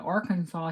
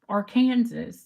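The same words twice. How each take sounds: First: The ending is pronounced like the word saw. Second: The ending is pronounced like the word Kansas. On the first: The speaker calls it right. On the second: The speaker calls it wrong.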